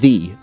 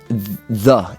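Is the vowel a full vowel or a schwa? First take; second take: full vowel; schwa. First: The vowel is a full, unreduced vowel. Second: The vowel is a short, neutral schwa. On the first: "instead of" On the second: "Everything is a schwa now"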